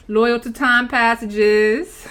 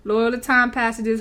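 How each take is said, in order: First: Slow, stretched-out proclamation; drawn-out declaration. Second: Repeated through a laugh. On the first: Pretend. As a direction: stretch every word out grandly. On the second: Real, not acted. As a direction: say it again while laughing.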